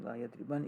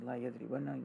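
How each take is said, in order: First: Yadriban ending on a single vowelless n; light final noon. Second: Yadribanna with a doubled n and a short final a; heavy noon ending on yadribanna. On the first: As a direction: stop "yadriban" on a plain n, no final a. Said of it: "khafifa is a sakin noon". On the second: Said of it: "that's double the shadda noon". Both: Shown as a demonstration.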